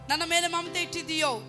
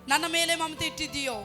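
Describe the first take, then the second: The two takes are said the same way.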